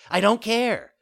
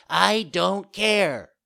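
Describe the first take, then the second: First: High, loud puppet outburst; defiant child. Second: Slow, loud, high bratty retort; drawn-out defiance. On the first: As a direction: cut in loudly, bratty. Puppet defies again, quicker. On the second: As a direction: stretch every word in stubborn defiance. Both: A narrator's reading.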